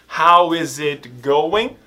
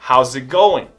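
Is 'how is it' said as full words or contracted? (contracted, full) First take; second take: full; contracted. First: Each word of 'how is it' is said separately. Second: 'How is' is run together quickly as 'how's'. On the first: "ao invés de ser how is it going" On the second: "falando mais rápido, vai ficar how's it"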